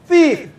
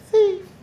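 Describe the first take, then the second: First: The word is said loudly, projected outward. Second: The word is said weakly, without projection. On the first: The speaker calls it right. "So you project your voice" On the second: The speaker calls it wrong. "Don't be like the person who is being attacked or being was being robbed"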